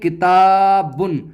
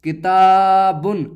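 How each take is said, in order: The two takes are said the same way.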